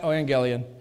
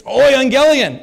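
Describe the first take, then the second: First: Said in the usual way. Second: "euangelion" starting "oi", louder, higher and slow; Greek euangelion. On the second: Shown as a demonstration. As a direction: proclaim "euangelion" with an "oi" opening, drawn out. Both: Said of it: "It's not evangelion".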